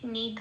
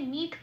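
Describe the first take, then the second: First: The word ends with a full vowel. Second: The word ends on a bare final consonant. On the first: The speaker calls it right. "ধ পূর্ণরূপে উচ্চারিত হবে" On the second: The speaker calls it wrong. "নিধ বলতে পারবো না"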